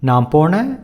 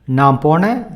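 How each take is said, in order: Both takes have the same delivery.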